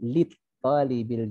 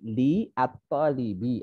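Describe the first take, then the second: First: The words are run together as one unit. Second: The words are said as separate parts. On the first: "dibaca langsung" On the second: "aslinya gitu"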